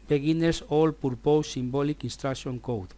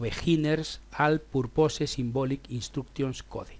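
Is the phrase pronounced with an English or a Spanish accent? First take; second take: English; Spanish. First: It is said with English sounds. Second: It is read out with Spanish sounds. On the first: The speaker is talking in English. "Cuando hablamos en inglés, entonces ya lo pronunciamos como corresponda" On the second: The speaker is talking in Spanish. "debemos de pronunciarlo conforme lo estamos leyendo"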